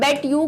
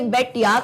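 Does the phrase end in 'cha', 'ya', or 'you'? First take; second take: you; ya. First: The two words are said separately, ending in 'you'. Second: The second word is reduced to 'ya'. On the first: "bet यू का मतलब होता है मैं तुमसे शर्त लगाती हूँ" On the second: "bet यू की जगह या होता है"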